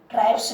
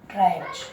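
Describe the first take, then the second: First: The word ends with an s sound. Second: The word ends with a z sound. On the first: The speaker calls it wrong. "ट्राइब्स नहीं बोलेंगे" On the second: The speaker calls it right. "एस का उच्चारण ज होता है"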